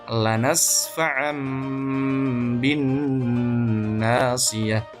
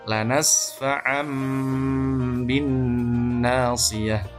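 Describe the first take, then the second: The two takes are said the same way.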